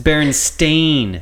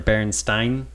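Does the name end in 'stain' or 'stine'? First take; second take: stain; stine. First: The ending sounds like 'stain'. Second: The ending sounds like 'stine'. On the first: This is how the name is actually spelled. The speaker calls it right. "That's not how it's spelled, though. It's Berenstain" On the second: This is how many people remember the name. The speaker calls it wrong. "some people remember Berenstain being spelled B-E-R-E-N, and then Stein S-T-E-I-N"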